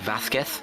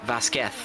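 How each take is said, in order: First: The middle consonant is a soft th sound. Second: The middle consonant is a plain s sound. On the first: The speaker calls it right. "kind of like the English T H, uh, making it more like Vasquez" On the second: The speaker calls it wrong. "we've been pronouncing it Vasquez"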